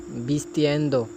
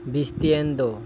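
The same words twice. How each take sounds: The two takes are said the same way.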